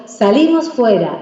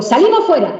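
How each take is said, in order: First: Slow, happy call to go out; joyful invitation. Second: Higher, stern order to get out; punishing tone. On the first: Parent inviting a child outside as a reward, joyful. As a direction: make going outside sound like a treat. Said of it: "es una alegría ese fuera". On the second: Parent sending a child outside as punishment, stern command. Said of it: "va castigado el niño". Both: Shown as a demonstration.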